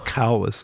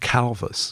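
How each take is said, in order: First: The consonant after the L is a w sound. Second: The consonant after the L is a v sound.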